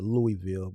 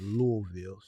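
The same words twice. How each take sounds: First: Pronounced the way an outsider says it. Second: Pronounced the way local residents say it. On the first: "I pronounce it Louisville" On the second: "the people from Louisville they pronounce it Louisville"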